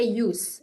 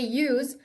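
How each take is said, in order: First: The word ends with a hissing s sound. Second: The word ends with a buzzing z sound. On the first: It is the noun meaning a use. "as a noun كاسم استعمال you say use" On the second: It is the verb meaning to use something. "if I say use it means uh, as a verb"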